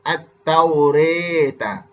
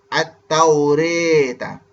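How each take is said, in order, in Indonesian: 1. Vokal setelah r terdengar dekat dengan e. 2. Vokal setelah r terdengar dekat dengan e.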